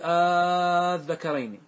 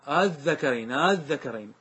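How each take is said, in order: First: The opening vowel is a long, drawn-out vowel. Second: The opening sound is eased between a catch and vowel. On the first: "يبدل مدا فتمد، تقول قل الذكرين، هذا المد" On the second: "والتسهيل هو النطق بها بين الهمزة والألف"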